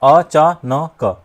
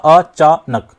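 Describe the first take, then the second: First: The ending is split into 'na' and 'ka'. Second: The ending 'nak' is kept as one syllable. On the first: The speaker calls it wrong. "यहां अचानक वाली sound change हो गई" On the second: The speaker calls it right. "अचानक वही आ रही है"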